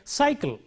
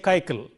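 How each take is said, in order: First: It begins with an s, then a k sound. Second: It uses a k sound in both places. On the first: The speaker calls it right. "So we say cycle" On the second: The speaker calls it wrong. "nor do we say kaikal"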